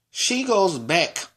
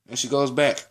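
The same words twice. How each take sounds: First: "She goes back" drawn out slowly, pitched up; slow dramatic emphasis. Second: Said in the usual way. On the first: Retold or imitated. Student retelling the part that ticked them off, "goes back" slowly drawn out.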